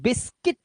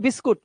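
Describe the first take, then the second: First: The final syllable has a short 'i' vowel, 'kit'. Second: The final syllable has an 'oo' vowel, 'kut'. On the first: The speaker calls it right. "बिस्किट होता है, किट" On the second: The speaker calls it wrong. "बिस्कुट नहीं है"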